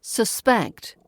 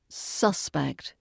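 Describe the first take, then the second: First: SusPECT, weak first vowel, strong ending; stress on second syllable. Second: SUSpect, full vowel up front; stress on first syllable. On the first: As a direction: say "Suspect" as the verb, sus-PECT. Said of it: "As a verb". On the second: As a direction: say "Suspect" as the noun, SUS-pect. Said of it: "As a noun". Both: Shown as a demonstration.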